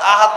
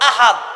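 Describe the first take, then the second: First: It begins with a throaty catch sound. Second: It begins with a breathy h sound. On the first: It means a promise. The speaker calls it wrong. "আহাদ মানে ওয়াদা" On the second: God is one. The speaker calls it right. "আহাদ আল্লাহ একক"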